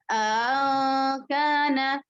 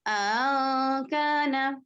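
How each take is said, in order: No difference in how they are said.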